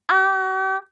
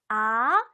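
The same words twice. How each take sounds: First: The pitch stays high and level. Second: The pitch rises from low to high. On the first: "앞으로 쭉" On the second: "아래서 위로"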